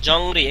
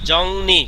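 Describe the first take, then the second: First: The second syllable starts with an r sound. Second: The second syllable starts with an n sound. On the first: The speaker calls it wrong. "কিন্তু তারা পড়ছে কি?" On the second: The speaker calls it right. "আমি নিয়ম শিখছি উচ্চারণ হবে জংনি"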